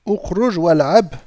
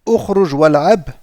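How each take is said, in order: Both takes have the same delivery.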